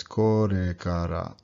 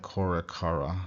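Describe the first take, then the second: First: "korekara" with light tapped r's near d. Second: "korekara" with hard American r's; the wrong, heavy-r "korekara"; English r. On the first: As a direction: tap the tongue for each r in "korekara". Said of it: "it's korekara". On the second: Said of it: "does not sound like". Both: Shown as a demonstration.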